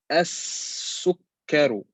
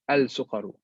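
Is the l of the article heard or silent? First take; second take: silent; heard. First: The l merges into a doubled s sound. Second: The l is clearly heard before the s. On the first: The speaker calls it right. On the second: The speaker calls it wrong.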